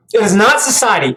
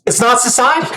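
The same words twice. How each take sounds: First: "not" pulled apart and hit hard; stress on not. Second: Said in the usual way. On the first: Shown as a demonstration. Correcting the guest, hitting "not" hard.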